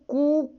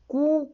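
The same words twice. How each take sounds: First: The vowel is held about twice as long. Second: The vowel is held very briefly. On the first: "क्रमशः है ह्रस्व दीर्घ और प्लुत" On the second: "जैसे कू यानी ह्रस्व स्वर"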